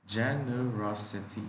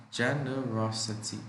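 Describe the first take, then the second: No difference in how they are said.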